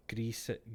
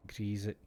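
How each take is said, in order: First: Grease with an s sound, greess; pronunciation. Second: Grease with a z sound, grease-z; pronunciation. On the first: Streamer tries grease with a hissed s. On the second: Streamer tries Grease with a z sound. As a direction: say Grease as greez. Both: Shown as a demonstration. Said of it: "saying grease or grease".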